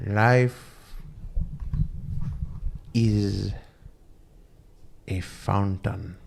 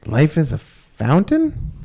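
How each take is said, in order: First: Solemn guru pronouncement. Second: Slow, higher and louder, rising in disbelief on "fountain"; baffled question. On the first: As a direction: intone it like a wise guru, one word at a time, on "Life is a fountain". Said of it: "the guru looks at him and he goes". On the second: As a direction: repeat it back as a puzzled, incredulous question, "Life is a fountain?". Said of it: "And the guy goes". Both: Retold or imitated.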